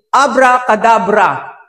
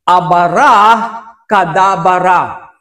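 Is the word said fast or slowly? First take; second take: fast; slowly. First: The word is said quickly, run together. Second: The word is said slowly, syllable by syllable.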